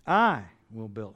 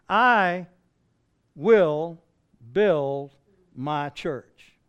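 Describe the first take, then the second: First: Said in the usual way. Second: I, will, build each set apart and punched loud, with pauses between; emphatic, word by word. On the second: Acted. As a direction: hammer out "I will build" one word at a time. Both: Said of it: "How emphatic".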